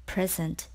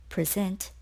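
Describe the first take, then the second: First: "Present" as PREZ-ent, the noun; stress on first syllable. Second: "present" as pri-ZENT, the verb; stress on second syllable. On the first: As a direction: put the beat on the front of "Present". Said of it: "Present is a noun". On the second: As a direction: put the beat on the end of "present". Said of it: "present is a verb". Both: Shown as a demonstration.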